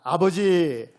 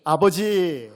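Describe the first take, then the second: First: "아버지" called out loud and full; loud heartfelt call of 아버지; calling father aloud. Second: "아버지" called loud once more, held and full; second loud call of 아버지; calling father again aloud. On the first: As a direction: cry out "아버지" to God. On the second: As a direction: call "아버지" out with all your heart. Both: Shown as a demonstration. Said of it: "아버지라고 한번 불러보겠습니다".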